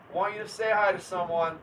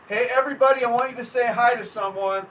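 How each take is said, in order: First: Said in the usual way. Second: Louder, higher eager announcement; rally the chat to greet someone; excited call. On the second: Real, not acted. Streamer excitedly calling viewers to greet a guest, loud and bright.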